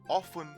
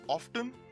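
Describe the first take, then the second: First: The T sound is silent. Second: The T sound is clearly pronounced. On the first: "enounced by the British ... the T is silent" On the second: "the Americans pronounce these words by prominently pronouncing the T"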